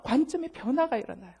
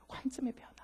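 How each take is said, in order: First: Said in the usual way. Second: Whispered echo; whispered repetition of the key phrase. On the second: Shown as a demonstration. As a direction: breathe the phrase as a secret.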